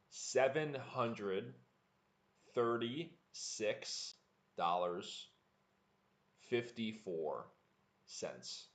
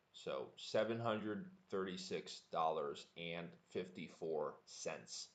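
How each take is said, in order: First: Slow, word by word, each number set apart; slow practice read. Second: Said in the usual way. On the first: Shown as a demonstration. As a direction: spell the price out slowly for learners. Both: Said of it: "Just to review the number for practice".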